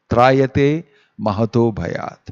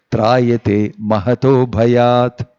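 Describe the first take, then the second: First: "Trayate" stressed, falling at the end; spoken repeat. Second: Drawn-out Sanskrit chant, each syllable held; sung, slow recitation. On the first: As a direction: repeat the line in plain speech, leaning on "Trayate". Repeats verse line as spoken emphasis. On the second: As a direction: chant the verse line slowly, stretching "mahato". Closing line of recited Sanskrit verse. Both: Shown as a demonstration.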